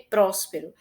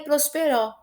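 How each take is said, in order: First: The stress is on the first syllable. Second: The stress is on the last syllable. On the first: The speaker calls it right. "que mais forte é o pró" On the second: The speaker calls it wrong. "E nem é prosperó"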